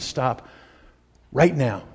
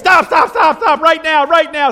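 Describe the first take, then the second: First: It is said in a calm, quiet voice. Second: It is yelled in a loud, forceful voice. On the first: The speaker calls it right. "You can rebuke somebody with as calm a voice as I've got" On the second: The speaker calls it wrong. "I was told don't yell in this thing"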